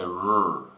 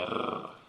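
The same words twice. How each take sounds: First: The R is said the English way. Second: The R is said the Latin way. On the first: "We say R" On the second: "they say R. Quite a difficult sound to make"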